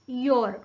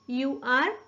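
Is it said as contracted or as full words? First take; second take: contracted; full words. First: It is said as one contracted syllable. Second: It is said as two full separate words.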